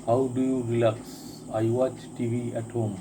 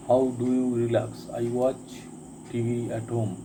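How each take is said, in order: Both takes have the same delivery.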